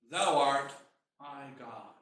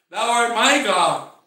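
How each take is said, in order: First: Low, trailing reverent murmur; quiet, low prayerful declaration; hushed confession. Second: Loud, slow declaration of faith; emphatic preacher's confession, drawn out; proclamation. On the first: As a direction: say it softly, sinking almost to nothing. Preacher voices the people's humble confession. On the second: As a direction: ring it out slowly and firmly. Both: Acted.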